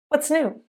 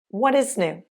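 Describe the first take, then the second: First: The words are contracted and reduced together. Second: Each word is said fully and separately.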